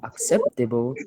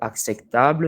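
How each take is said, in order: First: It is pronounced the English way. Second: It is pronounced the French way. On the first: "nous dirons acceptable" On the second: "À la place de acceptable"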